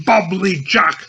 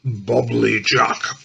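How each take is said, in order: First: Higher, brighter turkey gobble; higher gobbling answer from Virag. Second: Low, slow turkey gobble; low, slow gobbling from Virag. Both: A narrator's reading. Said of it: "He gobbles gluttonously with turkey wattles".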